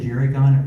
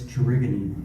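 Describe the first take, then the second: First: The word ends after the 'gon' syllable. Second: The word ends with an extra 'ee' syllable. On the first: This is the common way people say it. The speaker calls it wrong. "Most people say Jerrygon" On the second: This is the proper way to say it. The speaker calls it right. "Apparently it's Jerigony"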